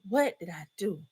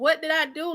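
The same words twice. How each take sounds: First: It sounds like dismayed regret over an action. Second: It sounds like a puzzled, genuine question.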